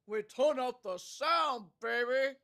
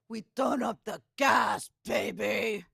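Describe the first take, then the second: First: It is said in an American accent. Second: It is said in a Russian-style accent.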